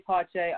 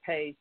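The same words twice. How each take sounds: First: PACHE drawn out slowly as pah-CHAY; own pronunciation of Pache. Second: PACE as one syllable, like the word pace; PACE, softer, rhyming with face; others' pronunciation of Pache. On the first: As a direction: stretch out PACHE as two syllables, pah-chay. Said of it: "I say Pache". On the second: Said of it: "Other people say Pace". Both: Shown as a demonstration.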